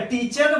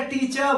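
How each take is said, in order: First: "टीचर" said as "tee-char" with the R pronounced; final R sounded. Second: "टीचर" said as "tee-chaa", open vowel at the end; final R dropped. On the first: Teacher quizzing class on the dictionary's sound, "टीचर" with final R. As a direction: close "टीचर" on a clear R. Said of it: "र का उच्चारण किया last में". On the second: Teacher quizzing class on the dictionary's sound, "टीचर" without final R. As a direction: leave the R off "टीचर", ending on "aa". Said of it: "र का उच्चारण नहीं किया ना". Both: Shown as a demonstration.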